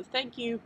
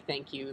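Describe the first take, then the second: First: "Thank you" lifted high with a British lilt; slight British lilt. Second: Said in the usual way. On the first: Shown as a demonstration. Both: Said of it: "there's still a slight lilt".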